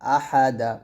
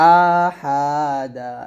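First: The vowel is kept short. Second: The vowel is drawn out long. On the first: The speaker calls it right. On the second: The speaker calls it wrong.

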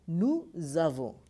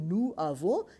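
First: A z sound links the two words together. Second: The two words are said separately without linking. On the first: The speaker calls it right. "it becomes nous avons" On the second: The speaker calls it wrong. "So rather speaking nous avons"

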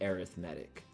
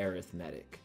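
First: It is said the special way used for sequences. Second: The same.

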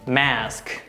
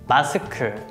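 First: It is said with American pronunciation. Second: It is said with Korean pronunciation. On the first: "American pronunciation" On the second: "Korean pronunciation"

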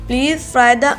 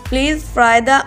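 The two takes are said the same way.

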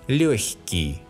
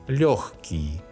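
First: The middle sound is a soft х. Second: The middle sound is a hard х. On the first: "When the sound к is soft, the letter г specifies a soft sound х" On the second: "some Russians pronounce a hard sound х here"

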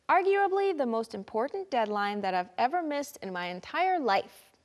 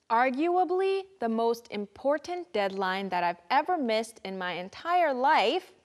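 First: The sentence is said at a faster pace. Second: The sentence is said at a slower pace.

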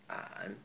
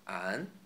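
First: It is said in the third tone. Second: It is said in the second tone.

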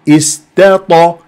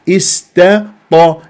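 No difference in how they are said.

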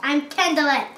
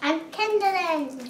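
First: The voice sounds a bit mean. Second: The voice sounds happy.

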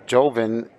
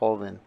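First: It begins with an English J sound. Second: It begins with a breathy H sound. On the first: "Joven is how a lot of people pronounce it" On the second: "The J is pronounced like an H"

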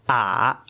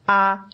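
First: The pitch dips low, then rises. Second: The pitch stays high and level.

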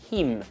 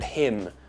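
First: The vowel is close to the ee of cheese. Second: The vowel is a short ih sound. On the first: "like the E in cheese" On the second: "the eh sound in tin and pit and him"

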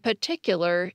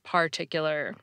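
First: The first R sound is dropped. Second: The first R sound is pronounced. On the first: "particular instead of" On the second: "instead of particular"

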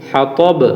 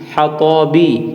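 First: The word ends on a bouncing b stop. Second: The word ends on a short i vowel. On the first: "সাকিন দিয়ে উচ্চারণ করবো, কলকলা কলকলা করবো" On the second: "ত বা জের বি"

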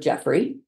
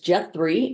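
First: The middle consonant is an f sound. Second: The middle consonant is a th sound. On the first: The speaker calls it right. "his F for TH substitution didn't apply to his actual name" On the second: The speaker calls it wrong. "I taught one small child to pronounce his name as"

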